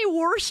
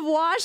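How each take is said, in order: First: Wash said as warsh, with an r; warsh, Midwestern r before the sh; regional WARSH. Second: Said in the usual way. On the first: Shown as a demonstration. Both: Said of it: "You say wash instead of wash".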